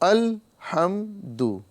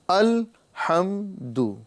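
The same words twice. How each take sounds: No difference in how they are said.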